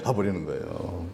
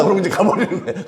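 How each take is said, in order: First: Much softer, lower repeat; soft trailing echo; quiet echo. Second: Said through a laugh, higher; chuckling as he says it; amused, laughing delivery. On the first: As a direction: let it fall away under the breath. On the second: Repeated line, first take. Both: Real, not acted.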